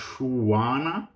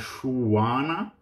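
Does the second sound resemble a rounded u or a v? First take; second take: rounded u; rounded u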